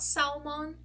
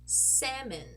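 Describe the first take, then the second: First: The L in the word is sounded. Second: The L in the word is silent. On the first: The speaker calls it wrong. "Not salmon" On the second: The speaker calls it right. "this is actually pronounced salmon"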